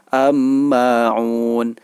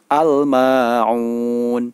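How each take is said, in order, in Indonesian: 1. Bunyi l menyatu dengan m ganda. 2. Bunyi l terdengar jelas sebelum ma'un. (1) "Tidak boleh dibaca am-ma'un" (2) "cara membacanya adalah al-ma'un"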